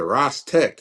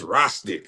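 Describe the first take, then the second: First: The second syllable sounds like 'tech'. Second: The second syllable sounds like 'tick'. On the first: Someone else mispronounced the name. The speaker calls it wrong. "he said Ross Tech" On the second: This is how the owner says the name. The speaker calls it right. "It's Rostic"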